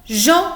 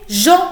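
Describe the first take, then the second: The two takes are said the same way.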